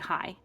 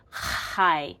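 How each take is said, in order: First: It starts with a soft, plain h sound. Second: It starts with a harsh rasp in the throat. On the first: "So I just say hi" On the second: "it's this real throatal high"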